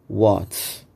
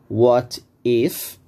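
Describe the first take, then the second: First: The words are contracted into one quick syllable. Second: Both words are said fully and separately. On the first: "pode falar mais rápido" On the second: "Para você não falar what is"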